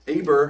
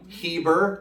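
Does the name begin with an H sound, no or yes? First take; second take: no; yes. First: The name begins with a vowel sound. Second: The name begins with an H sound.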